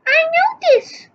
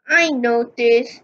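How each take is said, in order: First: Notice said high, put-on; high character voice. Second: Said in the usual way. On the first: Shown as a demonstration. Girl answers about the slippers, high.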